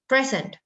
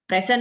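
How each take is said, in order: First: The stress is on the first syllable. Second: The stress is on the second syllable. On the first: The speaker calls it right. "So you say present" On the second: The speaker calls it wrong. "bukan present ma'am"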